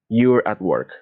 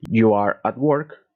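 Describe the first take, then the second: First: You are is joined into one short word. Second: You are is said as two full words.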